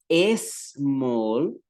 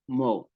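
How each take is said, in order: First: An extra e vowel comes before the s. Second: The word starts directly with a voiceless s. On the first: The speaker calls it wrong. "yo no diría small" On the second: The speaker calls it right. "sino small"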